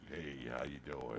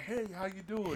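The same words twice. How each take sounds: First: It is said in a much deeper voice. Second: It is said in a normal speaking voice.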